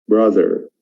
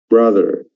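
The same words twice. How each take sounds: No difference in how they are said.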